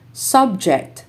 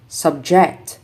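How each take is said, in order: First: SUBject, stressed on the first syllable; noun stress. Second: SubJECT, stressed on the second syllable; light sub, strong JECT in subject; verb stress. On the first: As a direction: punch SUB in Subject, then fall. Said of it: "nouns are stressed on the first syllable". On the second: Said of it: "verbs are stressed on the second syllable". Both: Shown as a demonstration.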